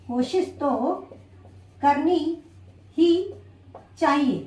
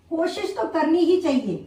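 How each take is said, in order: First: Spaced out word by word, pausing between each; slow dictation. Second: Said in the usual way. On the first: Shown as a demonstration. Teacher writing the example on the board, dictating word by word. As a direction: dictate it slowly, one word at a time as you write it. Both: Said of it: "देखा आपने यहाँ पे मैंने sentence को करनी ही चाहिए".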